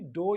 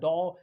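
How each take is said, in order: First: The vowel is a rounded 'oh' sound. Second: The vowel is an open 'aw' sound. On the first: "ना कि डो या डॉ ऐसे नहीं पढ़ा जाएगा" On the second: "ना कि डो या डॉ ऐसे नहीं पढ़ा जाएगा"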